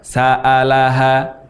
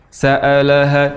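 First: The a vowels sound overly open, mouth very wide. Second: The a vowels sound closed, mouth barely open. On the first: "membuka mulut secara berlebihan. Contoh yang salah" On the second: "sa'alaha dengan mulut tidak terbuka"

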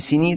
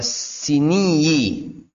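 First: The final y sound is short and single. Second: The final y sound is doubled and lengthened. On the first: The speaker calls it right. "harusnya sini" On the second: The speaker calls it wrong. "sebagian murid itu mentasjidkan ya"

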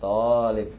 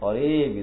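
First: The first vowel is held long. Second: The second vowel is held long. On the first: The speaker calls it right. "Jadi yang dipanjangkan itu huruf to-nya" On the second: The speaker calls it wrong. "bukan huruf bukan lamnya ... Bukan talib"

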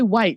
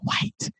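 First: The word is spoken in a normal voice. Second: The word is whispered under the breath. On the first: The word is said openly. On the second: The word is treated as something to hide. "folks start whispering"

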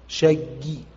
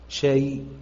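First: Doubled final y, with a faint short vowel. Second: Single final y, with a faint short vowel. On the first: "ورو" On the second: "ورو"

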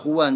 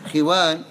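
First: The first syllable has a u vowel. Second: The first syllable has an i vowel. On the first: "ويقال خوان بالضم أيضا" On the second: "بكسر الخاء وفتح الواو"

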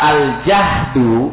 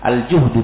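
First: The first vowel is an open a sound. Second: The first vowel is a rounded u sound. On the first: It means hardship. "kalau dibaca dengan fathah, al-jahdu bil-fathi" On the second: It means hunger. "al-juhdu bidhommi, kalau kita membacanya dengan dhamma"

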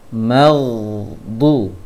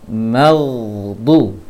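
Both takes have the same delivery.

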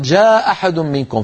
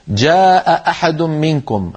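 First: Only one glottal stop is pronounced. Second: Both glottal stops are clearly pronounced. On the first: "فاكتفوا بهمزة" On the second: "التقى همزتان"

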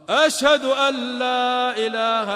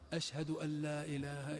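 First: It is said in a raised, loud voice. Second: It is said in a low, quiet voice. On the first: Those far away are meant to hear it. "رجع لقول الشهادتين بصوت مرتفع" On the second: Only those nearby are meant to hear it. "أن تذكر الشهادتين بصوت منخفض يسمعه من قرب"

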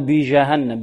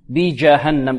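First: The j sound is soft without a stop. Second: The j sound is fully stopped. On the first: The speaker calls it wrong. "لا نقول بجهنم" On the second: The speaker calls it right. "الجيم شديدة كذلك، لابد من حباس الصوت عندها"

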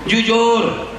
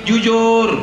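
Both takes have the same delivery.

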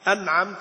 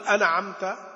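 First: The silent consonant is held clean and still. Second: The silent consonant gets an extra bounce or vowel. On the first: The speaker calls it right. "واحرص على السكون" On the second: The speaker calls it wrong. "ما تقول أنعمت"

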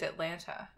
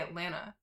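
First: The T sound after the N is pronounced. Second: The T sound after the N is dropped. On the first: This is how the other person says it. "You pronounce the T at the end" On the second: This is how a local from the South says it. "And I say Atlanta"

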